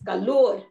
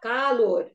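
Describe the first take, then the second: First: The stress is on the last syllable. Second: The stress is on the first syllable. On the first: The speaker calls it right. "It is calor. ... the stress is on the last syllable" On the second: The speaker calls it wrong. "It is not calor"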